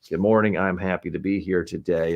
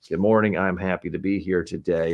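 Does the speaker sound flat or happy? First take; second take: flat; flat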